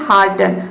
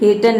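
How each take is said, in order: First: The first vowel sounds like 'ah'. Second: The first vowel sounds like 'eh'. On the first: The speaker calls it right. "ये होता है हार्टन" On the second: The speaker calls it wrong. "इसको हर्टन या फिर हेटन नहीं बोलते हैं"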